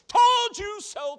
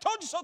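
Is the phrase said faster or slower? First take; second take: slower; faster. First: The phrase is said at a moderate speed. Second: The phrase is said very fast. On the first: The speaker calls it wrong. "I'll be able to say quickly" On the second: The speaker calls it right. "I'm going to have to say it faster than that"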